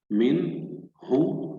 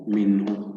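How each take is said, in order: First: "من هو" slowly split, each part lifted; syllable by syllable. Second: Said in the usual way. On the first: Shown as a demonstration. Teacher shows the short gap between syllables, slow split reading. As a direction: say "من", leave a gap, then "هو". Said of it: "فاصل قصير بين المقاطع". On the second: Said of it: "سنعيد قراءة الكلمة بشكل كامل".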